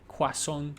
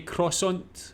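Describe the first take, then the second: First: It has a smoother French pronunciation. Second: It has an English pronunciation with a clear R. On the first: "in French it's like croissant" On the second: "in English, a lot of people will say croissant or something like that. They pronounce the R"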